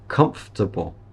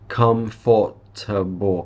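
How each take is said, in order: First: The middle 'fort' syllable is reduced. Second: The middle 'fort' syllable is fully pronounced. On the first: The speaker calls it right. "the correct way" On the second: The speaker calls it wrong. "Many people will pronounce the fort in here"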